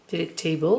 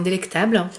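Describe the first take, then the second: First: Playful attempt at an English accent; French speaker's put-on English pronunciation; mock-superb English accent. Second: Said in the usual way. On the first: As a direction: say "Delectable" the English way, hamming it slightly. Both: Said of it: "avec mon superbe accent".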